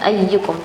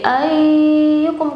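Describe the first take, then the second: First: The y sound is doubled with a short vowel. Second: A sound in the word is drawn out too long. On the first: The speaker calls it right. "harusnya bacanya ayyukum karena ada tasydid" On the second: The speaker calls it wrong. "ayyukum kepanjangan"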